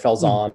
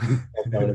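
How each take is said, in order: First: The name is said the usual, unaccented way. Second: The name is said with a European-style twang. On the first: "is normally how we say it" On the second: "if you have kind of a European twang"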